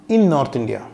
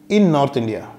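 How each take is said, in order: The two takes are said the same way.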